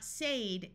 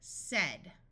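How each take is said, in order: First: The vowel is a long A sound. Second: The vowel is a short E sound. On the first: The speaker calls it wrong. "This is not said" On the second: The speaker calls it right. "it is said with a short E sound"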